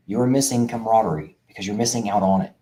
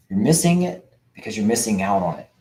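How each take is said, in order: First: A little more measured, spelling it out; slowly, deliberately. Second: Said in the usual way. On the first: Shown as a demonstration. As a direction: repeat it carefully so CAMARADERIE lands. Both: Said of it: "I'm gonna say that again slowly".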